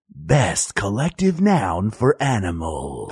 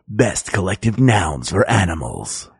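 First: It is said at a slower pace. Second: It is said at a faster pace.

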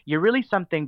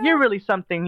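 First: It is delivered plainly, without old-fashioned theatricality. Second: It is delivered in a theatrical 1970s TV style.

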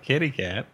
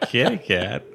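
First: It is said in a plain, ordinary way. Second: It is said in a creepy, suggestive way.

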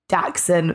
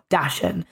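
First: The word is pronounced like 'daxen'. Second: The word is not pronounced like 'daxen'. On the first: The speaker calls it right. "said Dachshund phonetically, so D-A-X-E-N" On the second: The speaker calls it wrong. "not Dachshund"

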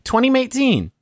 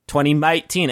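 First: It is said in a plain American accent. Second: It is said in a put-on British accent.

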